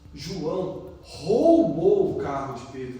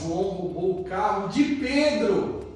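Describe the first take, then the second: First: The emphasis falls on the word roubou. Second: The emphasis falls on the word Pedro. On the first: The act of stealing is the point. "Nossa, ele roubou, que ato feio" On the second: The victim deserves pity. "Coitado do Pedro"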